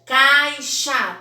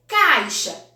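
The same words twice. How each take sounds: First: "caixa" loudly as cai... xá, final a open; two separate beats on "caixa": cai, xa; split into syllables. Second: Said in the usual way. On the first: Shown as a demonstration. Teacher showing two syllables, "caixa" split as cai... xa. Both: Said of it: "também duas".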